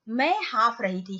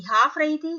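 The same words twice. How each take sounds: First: Said in the usual way. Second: "हाँफ रही थी" said higher and louder, as if out of breath; panting demo. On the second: Shown as a demonstration. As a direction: act out "हाँफ रही थी" like you are panting. ("हाँफ रही थी" हाँफते हुए, ऊँची और तेज़ आवाज़ में) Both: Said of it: "हाँफना क्या होता है?".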